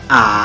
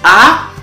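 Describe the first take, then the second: First: It is said with the third tone. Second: It is said with the first tone.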